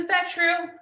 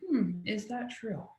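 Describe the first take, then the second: First: High, lifted question from mom; mom's gentle question. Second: Soft, slow, thoughtful murmur to herself; inner wondering. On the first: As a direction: ask it up high, curious and open. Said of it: "She said". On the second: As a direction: muse it quietly, slowly. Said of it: "stopping in my tracks and thinking". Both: Retold or imitated.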